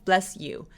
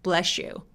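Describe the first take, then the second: First: The two words are said separately. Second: The two words are linked together. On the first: "bless you 라고 해도 돼요" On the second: "발음하기 편하라고 연결하면"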